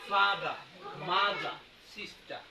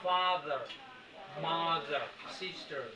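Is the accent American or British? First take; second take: British; American. First: The r sounds at the word ends are dropped. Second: The r sounds at the word ends are pronounced. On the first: "কিন্তু ওরা বলে" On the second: "আরটা এরকম করে আর ফাদার মাদার সিস্টার এরকম"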